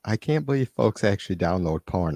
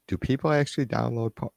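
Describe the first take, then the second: First: "can't" stressed, dry and sarcastic; mock disbelief on can't. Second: ACTUALLY stressed in quick mock surprise; fake-shocked, leaning on "actually"; mock disbelief on actually. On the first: Streamer teasing chat about downloads, dry mock shock. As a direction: play up the fake disbelief on "can't". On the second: Streamer answering a chat joke, feigned shock.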